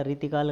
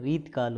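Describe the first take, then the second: First: रीतिकाल with "ti" in the middle; wrong extra i. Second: रीतकाल as "reet-kaal"; middle i dropped. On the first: Teacher showing the rejected form, three-syllable रीतिकाल. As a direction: sound the i after t in रीतिकाल. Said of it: "गलत है". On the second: Teacher giving students the form, two-syllable रीतकाल. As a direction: join t straight to k in रीतकाल. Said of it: "होता है". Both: Shown as a demonstration.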